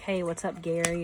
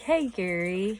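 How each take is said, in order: First: The greeting sounds casual and offhand. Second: The greeting sounds sweet and warm.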